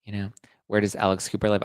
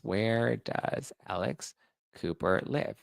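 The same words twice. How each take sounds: First: Said in the usual way. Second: Slow, drawn-out question with a rising end; slow pointed rising question. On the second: Shown as a demonstration. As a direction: stretch each word to make the point.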